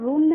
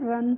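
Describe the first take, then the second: First: The vowel is a rounded 'oo' sound. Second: The vowel is an open 'uh' sound. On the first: The speaker calls it wrong. "इसको रुन नहीं पढ़ते हैं" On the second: The speaker calls it right. "रन पढ़ते हैं"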